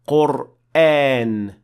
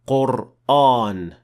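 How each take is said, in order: First: The long vowel is light and thin. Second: The long vowel is heavy and full. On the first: The speaker calls it right. "That's why we say Qur'an" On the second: The speaker calls it wrong. "not Qur'an"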